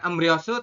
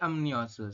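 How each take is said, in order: First: The second syllable starts with an r sound. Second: The second syllable starts with an n sound. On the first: The speaker calls it wrong. "bukan emryosu" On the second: The speaker calls it right. "tapi emnyosu"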